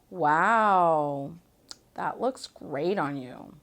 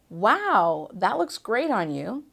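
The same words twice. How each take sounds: First: It sounds sarcastic and mocking. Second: It sounds like a sincere compliment.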